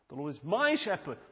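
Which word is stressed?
my. The stress falls on the word my. The focus is on oneself. The speaker calls it wrong.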